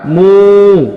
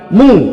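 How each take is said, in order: First: The vowel is held long. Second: The vowel is kept short. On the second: "tidak mat"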